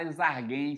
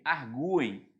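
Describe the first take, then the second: First: "arguem" as "ar-GHEM", U silent; quick "arguem" without the U sound; wrong pronunciation. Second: "arguem" as "ar-GOO-em", U stressed; correct pronunciation. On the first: Teacher showing what nobody says, "arguem" mispronounced without U. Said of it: "você não fala eles arguem". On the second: Teacher answering own question, U stressed in "arguem". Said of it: "você fala eles o quê?". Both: Shown as a demonstration.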